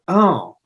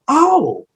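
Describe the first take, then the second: First: It sounds disappointed and dismayed. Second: It sounds delighted and impressed.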